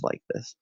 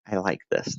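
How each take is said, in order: First: Breathy whispered echo of like this. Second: Said in the usual way. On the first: Shown as a demonstration. Streamer whispering to chat about the calm show. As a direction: drop to a whisper, no voice at all.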